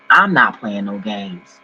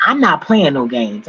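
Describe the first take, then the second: First: Slow, low, final warning; slow firm emphasis. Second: Said in the usual way. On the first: Real, not acted. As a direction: lower and slower, each word weighed.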